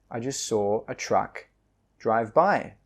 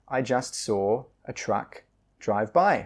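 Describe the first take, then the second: Both takes have the same delivery.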